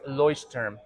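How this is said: The name is said with a thick German accent. The speaker calls it right. "Very thick German accent"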